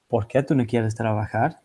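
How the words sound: The voice rises at the end.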